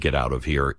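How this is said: It sounds like a gentle warning.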